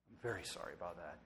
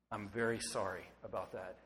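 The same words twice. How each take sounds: First: Much softer and lower, hushed and quicker; near-whispered apology. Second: Soft, sincere apology, voice dropping low; quiet apology. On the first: Pastor repeating apology to congregation, hushed and soft. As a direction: let the repeat fall away to a hush. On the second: Pastor to wounded listeners, soft sincere apology. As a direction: say sorry gently, almost to yourself. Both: Real, not acted.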